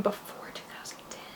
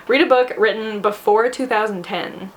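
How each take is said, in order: First: 轻声耳语重复"before two thousand ten"，几乎无声的气声; breathy whisper of the date limit to herself, much softer. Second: Said in the usual way. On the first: Real, not acted. Rereads prompt to herself.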